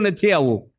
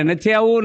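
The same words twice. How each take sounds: First: Said in the usual way. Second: Mock shout. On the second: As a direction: shout it like a stubborn old man refusing. (ફળિયામાં બૂમો પાડતા ભાભાની જેમ, ઊંચા અને મોટા અવાજે "નથી આવું") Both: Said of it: "ફળિયામાં બૂમો પાડે".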